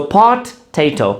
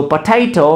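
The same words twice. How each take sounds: First: "potato" broken in two, "po", pause, "tato"; split into syllables. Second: Said in the usual way. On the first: Shown as a demonstration. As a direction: say "potato" slowly with a clear gap after "po". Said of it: "पोटैटो में एक है प, which is one syllable". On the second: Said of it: "पोटैटो में एक है प".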